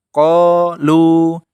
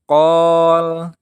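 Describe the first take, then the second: First: The final vowel is held for two beats. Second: The final vowel is dropped after the l. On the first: The speaker calls it right. "yang benar caranya adalah qalu, ... tetap dua harokat" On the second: The speaker calls it wrong. "Yang salah itu qol, lamnya dibaca sukun"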